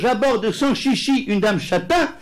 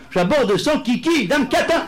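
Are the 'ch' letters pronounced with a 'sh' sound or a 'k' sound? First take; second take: sh; k. First: The ch letters are said with a sh sound. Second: The ch letters are said with a k sound. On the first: Someone politely approaches a chestnut-haired lady. The speaker calls it right. "à confondre les che et les que" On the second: The sentence turns into a crude insult. The speaker calls it wrong. "peut vite devenir pour l'ignorant"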